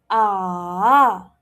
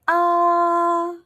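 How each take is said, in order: First: The pitch drops and then rises. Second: The pitch stays level throughout. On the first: "it drops and then it rises" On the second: "the first tone it goes flat"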